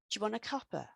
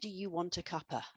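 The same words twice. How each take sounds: First: The words are reduced and run together quickly. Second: Each word is said separately and in full. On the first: The speaker calls it right. "Instead, if you want to say this" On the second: The speaker calls it wrong. "That's far too long"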